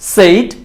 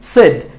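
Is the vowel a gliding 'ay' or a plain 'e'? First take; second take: gliding 'ay'; plain 'e'. First: The vowel glides from 'e' into 'ee'. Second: The vowel is a plain short 'e' sound. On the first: The speaker calls it wrong. "ভুল উচ্চারণটা হচ্ছে সেইড" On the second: The speaker calls it right. "সঠিক উচ্চারণটা হচ্ছে সেড"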